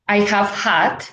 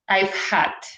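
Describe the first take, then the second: First: The word have is said in full. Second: The word have is contracted onto I. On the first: "we know that is have" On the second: "we have the contraction. So it would be I've"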